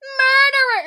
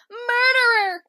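First: High, loud crying scream; screamed copy. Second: High, loud crying scream; screamed accusation. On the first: Popping out of the bush to copy Kira's scream. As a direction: shriek it right after her. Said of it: "I pop out of the bush and I'm like". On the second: Kira screaming murderer at Ward Cameron. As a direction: shriek the accusation. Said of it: "Kira goes like". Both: Retold or imitated.

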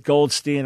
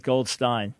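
First: "Goldstein" ending in steen; "Goldstein" rhyming with green; pronounced gold-STEEN. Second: "Goldstein" ending in stine; "Goldstein" rhyming with fine; pronounced gold-STINE. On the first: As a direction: say "Goldstein" with a long ee in the last syllable. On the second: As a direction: say "Goldstein" with a long i in the last syllable. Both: Shown as a demonstration. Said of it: "Depends on how they pronounce it".

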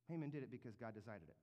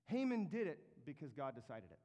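First: "Haman did it because God decided it" said lower and softer, weighted; slower, lower and softer repeat. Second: Said in the usual way. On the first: Shown as a demonstration. Preacher repeating the point so the church remembers, lower and softer. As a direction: let it sink in quietly. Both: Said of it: "the way I said that".

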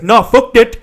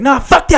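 First: Loud, raised mock African accent; heavy African accent. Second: High, loud mock outburst. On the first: Uber driver refusing passenger, imitated African accent. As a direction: attempt a thick African accent, loud and indignant. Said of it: "a really heavy African accent". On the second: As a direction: imitate an irate passenger, pitched way up.

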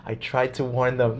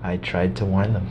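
First: Slowed, much softer doomed warning; imitating grim Musk, slow and quiet; slow grave Elon Musk. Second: Lowered, softer grim voice; imitating a solemn Musk who tried to warn them; grave Elon Musk quote. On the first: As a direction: let it land slow and hushed. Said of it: "He says it with that tone of voice". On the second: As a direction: quietly deliver a doomed warning. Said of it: "this is how he responds".

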